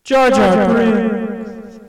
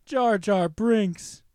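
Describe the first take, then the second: First: Very loud, long drawn-out shout with echo; echoing announcer shout. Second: Loud, drawn-out name call without effect; mock announcer call. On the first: Pretend. Host redoes the failed bit with effect on, booming echoed shout. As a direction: bellow the name and let it ring out. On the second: Host tries the bit before the effect works, loud drawn-out call. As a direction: belt the name slowly, dry.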